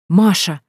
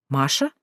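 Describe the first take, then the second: First: Sudden excited call; exclaiming. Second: Puzzled questioning. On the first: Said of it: "вдруг воскликнула Танька". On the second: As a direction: ask the name back, baffled. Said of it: "недоуменно нахмурился". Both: A narrator's reading.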